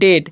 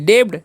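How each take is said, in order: First: The b sound is silent. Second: The b sound is pronounced. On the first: The speaker calls it right. "डेट पढ़ते हैं" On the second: The speaker calls it wrong. "डेब्ट नहीं पढ़ना है"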